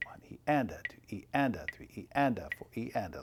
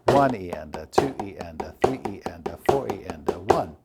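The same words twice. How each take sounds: First: Light number and "E", "and" popping out, then falling; accent on the "and". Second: Loud number, lighter lower "E and a"; accent on every beat. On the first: Drum teacher moving the accent onto the and, "and" stressed. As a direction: stress "and" in every "one E and a". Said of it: "Put the accent now on the and". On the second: Drum teacher showing an accent on every beat, numbers punched. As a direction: hit "One", "two", "three", "four" hard, letting "E and a" fall away. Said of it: "Here's an accent on every beat". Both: Shown as a demonstration.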